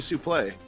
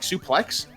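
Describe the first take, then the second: First: The word ends without a final x sound. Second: The word ends with an audible x sound. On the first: This is the original form of the word. "the word is actually supposed to be supplé. The X is silent" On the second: This form caught on through wrestling commentators. "pronounce it like suplex"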